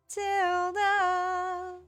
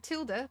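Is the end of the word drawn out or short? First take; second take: drawn out; short. First: The final sound is stretched out long. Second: The word ends quickly, with no stretching.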